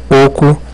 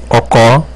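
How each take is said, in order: First: The last syllable carries no accent. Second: The last syllable carries the accent. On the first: "na ausência de acento ficaria oco" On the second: "É o caso de ocó"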